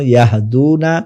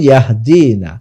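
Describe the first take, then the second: First: ইয়াহদুনা with a long OO after the D; long waw vowel. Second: ইয়াহদিনা with a long EE after the D; long ya vowel. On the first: Teacher giving the masculine plural, long DUU in ইয়াহদুনা. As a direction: hold the DU of ইয়াহদুনা. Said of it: "জমা মুজাক্কার গায়েবের জন্য". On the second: Teacher giving the feminine plural, long DII in ইয়াহদিনা. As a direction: hold the DI of ইয়াহদিনা. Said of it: "জমা মুয়ান্নাস গায়েবের জন্য". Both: Shown as a demonstration.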